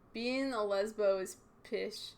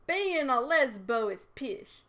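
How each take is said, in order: First: It is read in a plain accent. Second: It is read in a Scottish-style accent.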